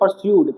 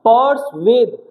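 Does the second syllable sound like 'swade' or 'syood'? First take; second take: syood; swade. First: The second syllable sounds like 'syood'. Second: The second syllable sounds like 'swade'. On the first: The speaker calls it wrong. "कुछ बच्चे इसको पढ़ते हैं परस्यूड, ... परस्यूड नहीं है" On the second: The speaker calls it right. "इसका pronunciation है पर्सवेद"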